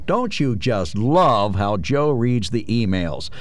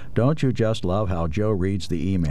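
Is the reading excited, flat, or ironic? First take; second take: ironic; flat. First: It is read in a mocking, ironic voice. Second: It is read in a flat, even voice. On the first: "Or I could read it with a bit of irony, which I think is what is intended" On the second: "I can read this flat"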